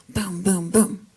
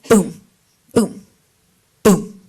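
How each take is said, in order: First: The booms come quickly one after another. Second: The booms are longer, with more space between.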